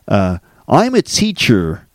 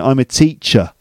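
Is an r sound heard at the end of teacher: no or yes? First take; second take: yes; no. First: Teacher ends with an audible r sound. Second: Teacher ends without an r sound. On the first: The speaker calls it wrong. "So I don't say" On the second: The speaker calls it right. "No, I say"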